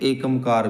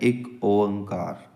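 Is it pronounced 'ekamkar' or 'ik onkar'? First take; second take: ekamkar; ik onkar. First: It is said as one word, ekamkar. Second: It is said as two words, ik onkar. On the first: The speaker calls it wrong. "ਕੁਛ ਇਹਦਾ ਉਚਾਰਨ ਆਮ ਤੌਰ 'ਤੇ ਏਕਮਕਾਰ ਵੀ ਕਰ ਦਿੰਦੇ ਆ" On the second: The speaker calls it right. "ਸਹੀ ਉਚਾਰਨ ਤੇ ਸ਼ੁੱਧ ਉਚਾਰਨ ਹੈ"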